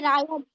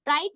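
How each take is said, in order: First: The word sounds like 'riot', two syllables. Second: The word sounds like 'right', one syllable. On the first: The speaker calls it right. "नहीं रायट" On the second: The speaker calls it wrong. "राइट नहीं"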